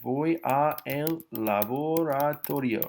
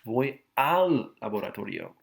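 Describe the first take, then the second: First: 'A' and 'el' are said as two words. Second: 'A' and 'el' merge into one syllable. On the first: The speaker calls it wrong. "No, you don't say a el" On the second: The speaker calls it right. "you say al"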